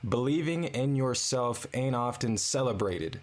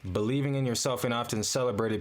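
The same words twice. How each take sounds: First: It is said slowly. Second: It is said fast.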